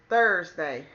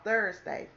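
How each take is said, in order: First: "Thursday" slurred, its first sound dropped, louder; tripping over "Thursday"; fumbled word. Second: Said in the usual way. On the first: Real, not acted. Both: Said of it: "dang, I can't even talk".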